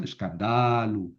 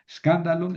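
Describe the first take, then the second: First: Escándalo said as escanDAlu, DA drawn out slowly; lower, slow escándalo with long accented DA; stress moved forward. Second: Escándalo with the accent on CAN; stress on third-last syllable. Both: Shown as a demonstration. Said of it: "tengo que mover el acento".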